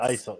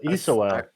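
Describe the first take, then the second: First: The name is said with two syllables. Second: The name is said with three syllables. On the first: The speaker calls it wrong. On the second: The speaker calls it right.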